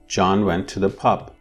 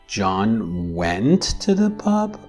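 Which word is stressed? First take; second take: pub; went. First: The main stress falls on pub. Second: The main stress falls on went. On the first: "The neutral or the least marked intonation has pub as the tonic syllable" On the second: "I'm marking went as the tonic syllable"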